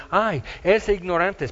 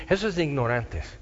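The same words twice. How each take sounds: First: Mild scoffing "Ay, es de ignorantes" with a lifted "Ay"; dismissive sneer. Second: Said in the usual way. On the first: Retold or imitated. Skeptics mocking believers, "Ay, es de ignorantes" in a light scoff. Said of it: "porque dicen".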